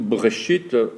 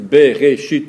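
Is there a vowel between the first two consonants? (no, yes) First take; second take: no; yes. First: The first two consonants run together without a vowel. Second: A short vowel separates the first two consonants. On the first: "qu'on dise Bereshit ou Breshit" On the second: "C'est Bereshit"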